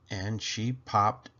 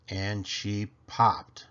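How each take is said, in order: Both takes have the same delivery.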